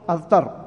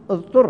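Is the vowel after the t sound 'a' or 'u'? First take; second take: a; u. First: The vowel after the t sound is 'a'. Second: The vowel after the t sound is 'u'. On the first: The person forced someone else. The speaker calls it wrong. "فلا تقول اضطر" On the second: The person was forced into it by someone else. The speaker calls it right. "إنما تقول اضطر"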